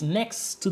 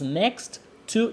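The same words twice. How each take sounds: First: The two t sounds merge into one. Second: The two t sounds are said separately. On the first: The speaker calls it right. "we make it one thing" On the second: The speaker calls it wrong. "We don't say the bakery is next to the snack bar"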